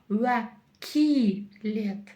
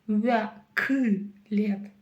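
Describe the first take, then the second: First: The second vowel is very soft and front. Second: The second vowel is very hard and back. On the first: "Буква «и» – это очень мягко" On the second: "буква «ы» – это очень твердо"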